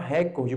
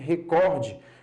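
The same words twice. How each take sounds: First: The stress is on the first syllable. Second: The stress is on the second syllable. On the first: The speaker calls it wrong. "Não se fala recorde" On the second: The speaker calls it right. "mas sim recorde"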